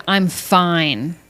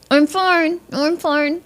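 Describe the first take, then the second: First: Said in the usual way. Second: High, strained fake fine; tight, high-pitched pretence of being okay; through gritted teeth. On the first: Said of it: "you say". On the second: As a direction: squeeze it out through clenched teeth. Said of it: "while gritting your teeth".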